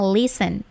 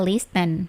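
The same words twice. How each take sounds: First: The t sound is left silent. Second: The t sound is clearly pronounced. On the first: The speaker calls it right. "Without T ya, T-nya itu nggak dibaca, langsung saja listen" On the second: The speaker calls it wrong. "Nggak usah baca listen"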